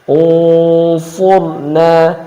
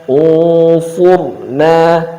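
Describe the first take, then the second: Both takes have the same delivery.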